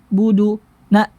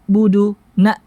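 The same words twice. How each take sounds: The two takes are said the same way.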